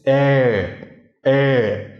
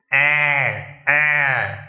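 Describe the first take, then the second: First: "Eh" held long from the throat, unaffected by a pinched nose; throaty, nose held. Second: "Ah" drawn out through a pinched nose; nasal, nose held. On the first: Teacher checks the throaty one, nose held. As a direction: hold the nose, keep "Eh" in the throat. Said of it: "the throaty one". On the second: Teacher checks the nasal sound, nose held. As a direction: hold the nose and push "Ah" into it. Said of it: "with the nasal sound". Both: Shown as a demonstration.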